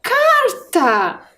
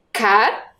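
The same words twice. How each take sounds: First: "Carta" as one high, stretched word falling at the end; joined-up word. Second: "Carta" broken into car, ta with a long pause; syllable-by-syllable reading. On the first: Teacher revealing the first word to pupils, "Carta" joined up. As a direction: blend "Carta" together, high and drawn out. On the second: Teacher reading the built word with pupils, "Carta" split apart. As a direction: read "Carta" one syllable at a time. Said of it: "Vamos ler agora?". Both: Shown as a demonstration.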